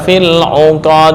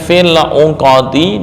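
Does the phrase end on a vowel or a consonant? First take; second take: consonant; vowel. First: The phrase ends on a stopped, bounced consonant. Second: The phrase ends with a final short vowel.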